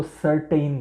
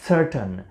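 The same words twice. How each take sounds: First: સર્ટેઇન with a long "tain" ending; common mispronunciation. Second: સર્ટન with a short unstressed "tan" ending; correct pronunciation. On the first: Retold or imitated. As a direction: quote the mistaken સર્ટેઇન, second syllable rhyming with "rain". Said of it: "ઘણા લોકો સર્ટેઇન કહેતા હોય છે". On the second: Shown as a demonstration. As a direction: model સર્ટન, no "ay" glide in the second syllable. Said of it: "આપણે કહીશું સાચો ઉચ્ચાર".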